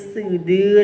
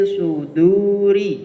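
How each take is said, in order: First: The s in sudur is thin and light. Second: The s in sudur is heavy and emphatic. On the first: The speaker calls it wrong. "bukan sin semua. ... ya malah keliru" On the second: The speaker calls it right. "yang kedua shad"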